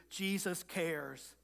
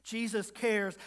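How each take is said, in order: First: Slow and soft, letting each word land; soft reassurance. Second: Said in the usual way. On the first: Real, not acted. Pastor gently reassures his congregation, slow and soft. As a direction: ease it out gently, almost hushed.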